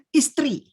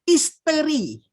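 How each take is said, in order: First: The vowel is dropped, making a tr cluster. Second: The syllable te is said fully with its vowel. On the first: The speaker calls it wrong. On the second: The speaker calls it right. "Mesti sebut"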